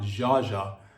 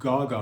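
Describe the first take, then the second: First: The name begins with a soft J sound. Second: The name begins with a hard G sound. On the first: "and not Jaja" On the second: "having her name pronounced Gaga"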